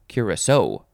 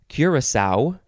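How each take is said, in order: First: The last syllable carries more stress. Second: The last syllable carries less stress.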